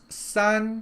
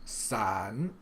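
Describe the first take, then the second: First: The syllable is said with the first tone. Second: The syllable is said with the third tone. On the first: It means three. "sun with the first tone" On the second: It means umbrella. "the tone that you're going to use to pronounce umbrella is the third tone"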